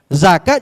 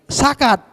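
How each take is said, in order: First: The word begins with a z sound. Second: The word begins with an s sound. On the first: "Misalnya zakat jadi sakat" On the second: "Jadi za tadi jadi sin"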